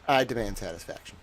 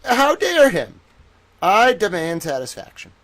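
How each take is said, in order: First: Softer, fast, thrown-away demand; quiet fast repeat. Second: Much higher, louder mock cry of outrage; old-time reporter outrage. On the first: Pretend. Reporter repeating his demand to the ladies and gentlemen, softer and fast. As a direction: mutter it quickly after the big line. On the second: Reporter demanding satisfaction, high hammed-up outrage. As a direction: squeal it like a scandalized thirties newsman. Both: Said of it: "nineteen thirties news reporter towel".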